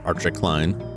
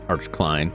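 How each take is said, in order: First: The first name ends with an extra vowel. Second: The first name is a single syllable. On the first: It follows the Japanese reading and sounds fancier. "if you wrote that out like in Japanese, Archie" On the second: It is the plain, lazy reading. "It could just be Arch"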